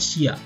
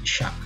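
First: It is said as two syllables, si-a. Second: It is said as one syllable, sha. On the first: The speaker calls it wrong. "bukan sia" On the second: The speaker calls it right. "tapi sha"

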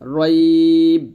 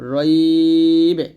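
First: The final b is clipped with no echo. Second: The final b is released with an echoing bounce. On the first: The speaker calls it wrong. "রইব এরকম না বলে" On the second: The speaker calls it right. "বলবেন রইবে"

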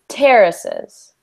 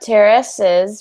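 First: The stress falls on the first syllable. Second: The stress falls on a later syllable. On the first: The speaker calls it right. "we just want to do terraces. So the emphasis is on the first syllable" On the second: The speaker calls it wrong. "Instead of terraces"

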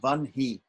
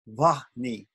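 First: The H sound comes after the N. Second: The H sound comes before the N. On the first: "apparently it's pronounced Vanhi"

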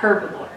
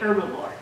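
First: The word begins with an h sound. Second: The word begins with no h sound. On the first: The speaker calls it wrong. "And not herbivore" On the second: The speaker calls it right. "when I say the word, I would say herbivore"

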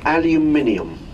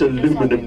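First: The word ends in '-inium', with five syllables. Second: The word ends in '-inum', with four syllables. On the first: The speaker calls it right. "Are we all clear about the pronunciation of this word henceforth?" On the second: The speaker calls it wrong. "None of this aluminum"

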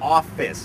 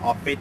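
First: The word ends with a clear s sound. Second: The word ends without a clear s sound. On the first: The speaker calls it right. "ก็จะออกเสียงว่า" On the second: The speaker calls it wrong. "อย่าเพิ่งไปออกเสียงว่า"

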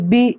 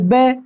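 First: The vowel is a long, close 'ee' sound. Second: The vowel is a mid 'ay' sound. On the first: The speaker calls it right. "ये सही तरीका है पढ़ने का" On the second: The speaker calls it wrong. "इस तरह नहीं पढ़ना है"

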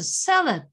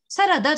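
First: It is said with English word stress. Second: It is said with Japanese katakana-style accent. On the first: The speaker calls it right. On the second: The speaker calls it wrong.

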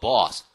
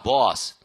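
First: The vowel starts as o and opens toward ah. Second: The vowel starts as o and opens toward ah.

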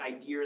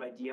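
First: An R sound is added after idea. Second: Idea ends in a vowel without R.

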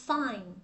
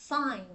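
No difference in how they are said.

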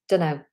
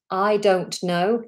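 First: The words are run together and reduced into one short word. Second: Each word is said clearly and separately. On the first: "It almost sounds like a completely different word" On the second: "I don't know just becomes dunno"

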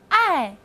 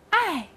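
First: The pitch falls sharply from high to low. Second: The same.

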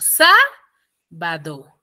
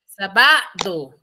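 First: The stress is on the first syllable. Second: The stress is on the second syllable. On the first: The speaker calls it right. "Es en la sa, yo digo" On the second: The speaker calls it wrong. "Ustedes me dicen que es en la va. Yo diría"

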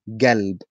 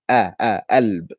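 First: The word begins with a g sound. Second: The word begins with no k sound. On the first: This is the southern form. "In the south, they say galb" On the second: This is the Cairo form. "In Cairo, we say alb"

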